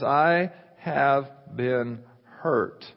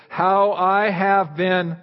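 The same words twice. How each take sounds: First: "I have been hurt." very slow with weight on I; slow, heavy emphasis. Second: Very slow, stretched phrase; slow, drawn out. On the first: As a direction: linger on each word like a wound. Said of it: "God says". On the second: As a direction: drag out each word to build suspense. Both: Shown as a demonstration.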